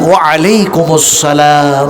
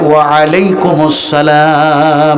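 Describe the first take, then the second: First: The words are split as wa alaikum assalam. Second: The same.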